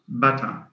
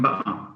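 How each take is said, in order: First: The middle t is pronounced as a clear t. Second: The middle t is replaced by a glottal stop. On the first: "not butter" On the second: "They change the T into into a glottal stop"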